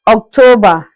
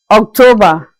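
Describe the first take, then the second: No difference in how they are said.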